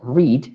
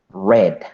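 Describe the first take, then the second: First: The word does not sound like 'red'. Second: The word sounds like the color 'red'. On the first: This is the present tense. "Ya no se pronuncia read" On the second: This is the past tense. "se pronuncia como el color rojo"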